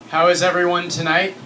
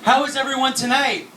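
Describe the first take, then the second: First: It is said flatly, with low energy. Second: It is said loudly, with high energy.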